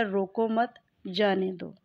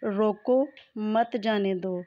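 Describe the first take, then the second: First: रोको मत run together, a stop, then जाने दो; pause after मत. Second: रोको, a clear stop, then मत जाने दो together; pause after रोको. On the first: Teacher shows how misplaced stopping changes meaning, pausing after मत. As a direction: move the break to just after मत. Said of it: "मानी क्या हो जाएगा?". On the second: Teacher shows learners where stopping is required, pausing after रोको. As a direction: slowly, break the sentence right after रोको. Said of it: "यहाँ ठहरना ज़रूर चाहिए वरना". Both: Shown as a demonstration.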